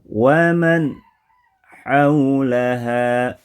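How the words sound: A pause breaks the phrase after the nasal. "ada jeda"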